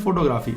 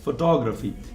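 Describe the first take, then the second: First: The stress is not on the second syllable. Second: The stress is on the second syllable. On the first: The speaker calls it wrong. "we call it photography. It's incorrect" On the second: The speaker calls it right. "There is a letter stress at T O, and that's why it's photography"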